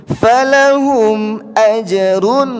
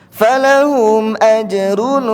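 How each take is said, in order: No difference in how they are said.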